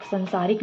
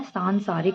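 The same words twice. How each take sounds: First: "संसारिक" starting short "san"; wrong short first vowel. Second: "सांसारिक" starting long "saan"; correct long first vowel. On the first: Teacher rejects the mistake, short "san" in "संसारिक". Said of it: "नहीं होता है". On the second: Teacher gives the correction, long "saan" in "सांसारिक". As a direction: stretch सां in "सांसारिक". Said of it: "सा के पीछे". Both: Shown as a demonstration.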